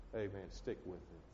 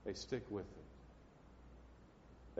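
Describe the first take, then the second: First: Said in the usual way. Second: Slow intimate whispered plea; slow hushed whisper. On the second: Shown as a demonstration. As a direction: whisper it very slowly, almost breathless.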